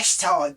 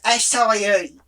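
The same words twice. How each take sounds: First: The word ends with a plain 'sigh' sound. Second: The word ends with a 'sigh-ee' sound. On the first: The speaker calls it wrong. "all the young ones today, they're calling it acai" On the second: The speaker calls it right. "No, it's acai"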